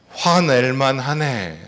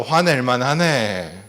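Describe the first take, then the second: First: Slow, gentle "화낼만 하네"; empathetic phrase demo. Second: Gentle affirming "화낼만 하네"; empathetic phrase demo. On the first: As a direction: say "화낼만 하네" slowly and kindly. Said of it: "따라해보세요". (천천히 공감하며 "화낼만 하네") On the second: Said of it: "잘했어". (부드럽게 인정하는 "화낼만 하네") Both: Shown as a demonstration.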